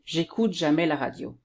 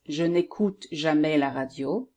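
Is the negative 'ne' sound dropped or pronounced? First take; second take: dropped; pronounced. First: The negative 'ne' sound is dropped. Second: The negative 'ne' sound is pronounced. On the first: This is how people commonly speak. The speaker calls it wrong. "French people will say" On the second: This is the grammatically correct form. The speaker calls it right. "the correct one is ... with the ne here"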